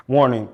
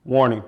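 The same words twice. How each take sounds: The two takes are said the same way.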